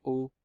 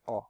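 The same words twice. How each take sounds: First: "O" as a closed vowel, lips drawn in. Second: "O" as an open vowel, mouth slightly open; soft open "aw" sound on "O". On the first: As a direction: close the mouth on "O", like the end of "stylo". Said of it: "si je ferme, ça fait". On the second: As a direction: let the air through on an open "O", like the vowel in "porte". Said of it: "Il y a de l'air qui passe". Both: Shown as a demonstration.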